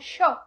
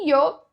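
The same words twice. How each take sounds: First: The Y sounds like a hushing 'sh' sound. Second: The Y sounds like a soft 'ee' sound. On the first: This is how Argentines say it. "na Argentina já vai falar como yo" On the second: This is how several South American countries say it. "esse yo com o som do i"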